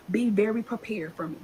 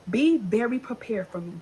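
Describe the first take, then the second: No difference in how they are said.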